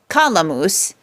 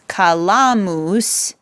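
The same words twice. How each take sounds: First: The accent is on the first syllable. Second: The accent is on the second syllable. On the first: The speaker calls it wrong. "not kalamus. That's not the way we say it" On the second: The speaker calls it right. "the accent moves over from the antepenult to the penult"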